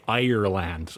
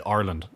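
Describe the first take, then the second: First: "Ireland" fully sounded as "Eye-er-land"; non-Irish pronunciation. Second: "Ireland" as Irish "Arlind", first syllable like "are"; Irish pronunciation. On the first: Shown as a demonstration. Telling people where he's from, careful "Eye-er-land". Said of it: "I have to say Ireland". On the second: Retold or imitated. Irishman telling people where he's from, "Ireland" said like "Arland". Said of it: "most Irish-sounding things that an Irish person can say".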